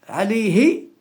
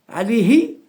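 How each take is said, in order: The two takes are said the same way.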